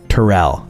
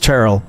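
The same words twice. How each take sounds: First: The name is said as two syllables. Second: The name is said as one syllable. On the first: The speaker calls it wrong. "instead of two" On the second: The speaker calls it right. "pronounce my name with one syllable"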